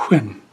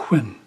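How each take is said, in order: No difference in how they are said.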